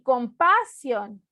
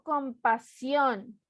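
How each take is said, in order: First: The stress is on the second syllable. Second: The stress is on the third syllable. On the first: The speaker calls it wrong. "ni compasión" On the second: The speaker calls it right. "digo compasión. Última sílaba"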